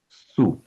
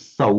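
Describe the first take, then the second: First: The vowel is a plain u. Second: The vowel is the diphthong au. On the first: The speaker calls it right. "but as su" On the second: The speaker calls it wrong. "not as sau"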